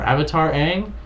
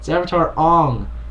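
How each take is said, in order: First: The name's vowel sounds like the one in cat. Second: The name's vowel sounds like the one in song. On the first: The speaker calls it right. "It's not even Aang anymore" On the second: The speaker calls it wrong. "everyone's name was being mispronounced"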